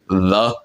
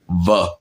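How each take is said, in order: First: It is said in a standard accent. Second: It is said in a Cockney accent. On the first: "instead of saying like the" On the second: "they actually say it like the"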